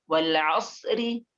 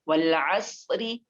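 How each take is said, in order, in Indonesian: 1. Huruf r-nya tipis dan diikuti vokal i. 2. Huruf r-nya tipis dan diikuti vokal i.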